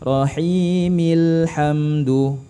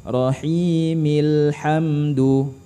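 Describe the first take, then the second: The two takes are said the same way.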